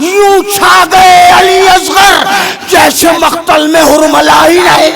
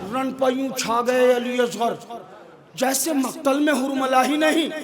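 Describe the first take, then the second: First: It is delivered in a loud, thundering voice. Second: It is delivered in a quiet, calm voice.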